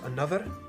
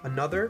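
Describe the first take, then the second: First: The R is rolled with a trill. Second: The R is said plainly, not rolled.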